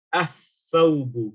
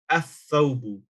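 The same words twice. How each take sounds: First: Athawbu very slow, lam silent, tha doubled; slow Arabic demo. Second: Athawbu at normal pace, lam silent; Arabic pronunciation demo. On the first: Teacher slowly modelling athawbu for students. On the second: Teacher repeating athawbu for students. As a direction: say athawbu, joining alif straight to tha. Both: Shown as a demonstration. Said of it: "You will say".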